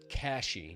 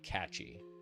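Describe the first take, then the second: First: The middle consonant is a soft 'sh' sound. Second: The middle consonant is a hard 'ch' sound. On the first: The speaker calls it right. "Cashy, not catchy" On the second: The speaker calls it wrong. "not catchy"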